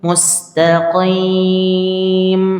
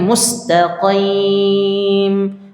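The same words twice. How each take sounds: The two takes are said the same way.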